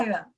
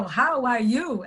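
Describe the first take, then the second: First: "Hire." slurred into one quick clipped word; slangy slurred greeting. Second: "How are you?" spelled out slowly, every word clear; careful textbook "How are you?"; slow, carefully pronounced "How are you?"; slow standard English. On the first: Retold or imitated. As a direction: swallow "How are you" into a quick "Hire.". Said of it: "Porque aquela linguagem". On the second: Shown as a demonstration. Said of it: "tipo assim, né, que é o".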